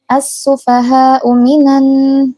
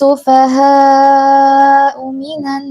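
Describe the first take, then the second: First: The long vowel before the hamza is held briefly. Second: The long vowel before the hamza is held long. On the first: The speaker calls it wrong. "jangan dibaca dua kat, dua harokat" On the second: The speaker calls it right. "tapi empat atau lima harokat"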